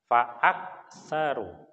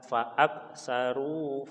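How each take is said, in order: First: The k is cut off with no air. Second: The k is released with audible air. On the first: The speaker calls it wrong. "fa'ak ditahan... kalau misalkan kafnya saya rubah jadi hamzah" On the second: The speaker calls it right. "kita keluarkan desisan atau udara dari kerongkongan kita"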